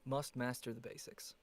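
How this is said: It is said in an American accent. "Can you say it in an American accent?"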